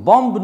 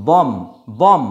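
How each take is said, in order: First: বম্ব with an audible b at the end; wrong, B sounded. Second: বম ending on m, no b; silent B. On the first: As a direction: release a b after the m in বম্ব. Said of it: "নয়". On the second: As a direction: stop on the m in বম. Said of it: "বি উচ্চারণ হয় না". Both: Shown as a demonstration.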